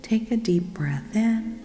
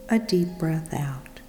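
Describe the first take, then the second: First: Voiced, lifted and inviting on "Take a deep breath in"; rising, open cue for "Take a deep breath in". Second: Whispered and falling on "a deep breath out"; breath out cue. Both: Shown as a demonstration.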